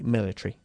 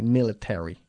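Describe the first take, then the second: First: It is pronounced with a British accent. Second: It is pronounced with an American accent. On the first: "In England we say military" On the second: "en Estados Unidos sí lo dicen así"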